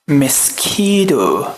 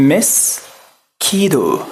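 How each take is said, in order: No difference in how they are said.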